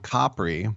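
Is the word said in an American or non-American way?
non-American. It is said in a non-American way.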